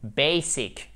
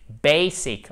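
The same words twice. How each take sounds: First: "basic" said the French way, stress at the end; wrong French basic. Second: "basic" stressed on the first syllable, BAY-sic; English basic. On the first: (basic prononcé à la française) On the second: (basic avec l'accent sur la première syllabe) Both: Shown as a demonstration. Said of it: "Accent tonique sur la première syllabe".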